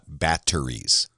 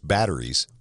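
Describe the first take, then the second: First: The middle consonant is a crisp T sound. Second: The middle consonant sounds like a soft D. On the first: "not batteries" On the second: "So you put the D sound in like I do. Most everybody goes batteries"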